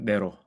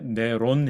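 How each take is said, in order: First: The name ends on a plain vowel. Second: The name ends with an added n sound. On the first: This is the Hebrew form of the name. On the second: This is the Greek form of the name. "끝에 눈을 넣어줘가지고 네론 이렇게 발음해요"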